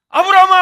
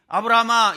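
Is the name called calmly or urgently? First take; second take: urgently; calmly. First: The name is called urgently and fast. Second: The name is called calmly and unhurried.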